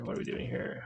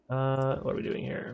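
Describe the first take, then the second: First: Softly whispered repeat; whispered echo of his own question. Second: Said in the usual way. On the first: Real, not acted. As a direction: breathe the question to yourself. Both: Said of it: "repeated question".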